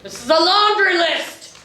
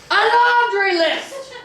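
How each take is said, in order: First: High outraged cry at laundry; outraged exclaim. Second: Laundry stretched on a very high rising cry; shrieking disbelief. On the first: Captain reads memo, outraged. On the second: Captain repeating the memo's insult, very high slow outrage. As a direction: wail the laundry list higher and slower. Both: Acted.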